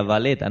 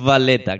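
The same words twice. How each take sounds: First: "Valletta" con B bilabial, a la española; pronunciación con B. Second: "Valletta" con V labiodental, dientes sobre el labio; pronunciación con V. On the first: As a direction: di "Valletta" juntando los labios, como B. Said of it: "Con la B". ("Valletta" con be española) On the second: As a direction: marca la V inglesa en "Valletta". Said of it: "porque hay V y B". ("Valletta" con uve labiodental) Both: Shown as a demonstration.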